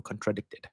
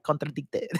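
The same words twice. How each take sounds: First: "contradicted" slipped into a light Québécois French accent, quiet; Quebec accent. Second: "Contradicted" repeated in a mock Québécois French accent, hard drawn-out K, quieter; Quebec accent. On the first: Real, not acted. Reading a viewer's question aloud with a slight Quebec accent. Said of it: "why did I say it like I'm from Quebec". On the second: Repeating the word to the chat in a mock Quebec accent. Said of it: "a Quebecois accent".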